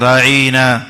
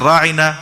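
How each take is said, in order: First: The word is stretched out and distorted. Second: The word is said at normal length. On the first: It becomes an insult. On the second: It politely asks for attention.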